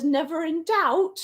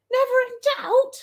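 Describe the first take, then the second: First: Said in the usual way. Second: Very high, quick squeak of disbelief; incredulous echo. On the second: Real, not acted. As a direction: throw the words back, pitched way up and fast. Echoes the comment, having doubted herself.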